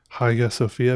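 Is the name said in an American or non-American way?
non-American. The name is said without an American pronunciation.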